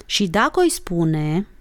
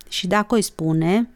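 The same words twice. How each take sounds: First: "Și dacă o-i spune" drawn out, rising end; slow dictation. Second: Reluctant, slow echo with a rising end; grudging. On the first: Acted. Olguța dictating "Și dacă o-i spune", slow and deliberate. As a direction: dictate "Și dacă o-i spune" slowly, left hanging. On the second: A narrator's reading. Monica made to repeat the oath, grudging. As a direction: repeat it unwillingly, understated. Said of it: "repetă Monica în silă".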